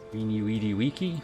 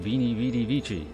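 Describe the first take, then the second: First: Each word begins with a w sound. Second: Each word begins with a v sound. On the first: The speaker calls it right. "I know how to pronounce it properly" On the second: The speaker calls it wrong. "It's not actually"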